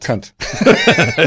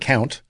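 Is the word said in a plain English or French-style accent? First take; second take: French; English. First: It is said with a French-style pronunciation. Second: It is said with plain English pronunciation.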